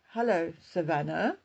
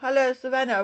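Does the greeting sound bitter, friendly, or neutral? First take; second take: bitter; neutral. First: The greeting sounds sarcastic and bitter. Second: The greeting sounds plain and neutral. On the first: The writer resents the person addressed. "which could sound sarcastic or bitter" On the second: It is just an ordinary greeting. "which could just be neutral, just a plain normal greeting"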